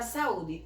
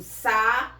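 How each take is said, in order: First: Said in the usual way. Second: "sa-u-de" lento, com o u alongado e isolado; sílabas separadas. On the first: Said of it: "na palavra saúde". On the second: Shown as a demonstration. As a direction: quebre "sa-u-de" em três sílabas claras. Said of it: "Eu digo sa-u-de". ("sa-u-de" pronunciado sílaba por sílaba)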